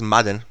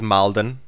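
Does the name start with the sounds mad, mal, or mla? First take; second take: mad; mal. First: The l sound is dropped, giving m-a-d. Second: A vowel comes between the m and the l. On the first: "they pronounce it as Madden" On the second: "people pronounce it as Malden"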